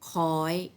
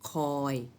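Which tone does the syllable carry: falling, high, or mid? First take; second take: high; mid. First: The syllable is said on a high tone. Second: The syllable is said on a level mid tone. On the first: "รูปโทก็จริงแต่เป็นเสียงตรี" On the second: "คอยเป็นเสียงสามัญ"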